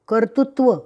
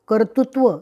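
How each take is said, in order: The two takes are said the same way.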